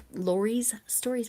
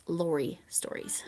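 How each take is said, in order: First: "Lori's Stories" with a clear S on "Lori's", said slowly; to a viewer, say "Lori's Stories" with the extra S; wrong way to say it. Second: "Lori Stories" with no S on "Lori", a bit softer; right way to say it. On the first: To viewers, the misheard "Lori's Stories" with an S, slowly. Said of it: "it sounds like Lori's Stories". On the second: To viewers, correcting the channel name to "Lori Stories", no S. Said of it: "but it's Lori Stories". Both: Shown as a demonstration.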